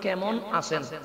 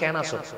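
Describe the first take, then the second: First: Standard pronunciation, with the m sound kept. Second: Chittagonian pronunciation, with the m sound dropped. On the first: "যেমন আপনারা বলেন" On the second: "মটা কাটি বলছে"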